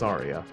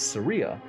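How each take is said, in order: First: The name is said not rhyming with Maria. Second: The name is said rhyming with Maria. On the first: This is the speaker's own usual pronunciation. "which I pronounced Saria" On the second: This is how someone else pronounces it. "like the name Maria"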